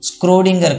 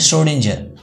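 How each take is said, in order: First: The name begins with an sk sound. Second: The name begins with an sh sound. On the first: The speaker calls it wrong. "కాదు" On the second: The speaker calls it right. "It is a ష్రోడింజర్"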